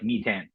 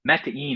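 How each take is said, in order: First: The name sounds like the English word methane. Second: The name sounds like meta followed by in. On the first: This is how the spelling reads in English. "the name looks like Metan, right? Like in English" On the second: This is how the company itself says the name. "Metain is how we pronounce it because it's Meta Data Invest"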